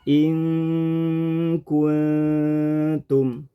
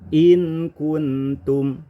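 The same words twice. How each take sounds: First: The n is concealed with a nasal hum. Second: The n is pronounced clearly and distinctly. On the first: The speaker calls it right. "harusnya nun in kuntum ini dibaca ikhfa" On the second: The speaker calls it wrong. "kemudian kita rubah menjadi idhar"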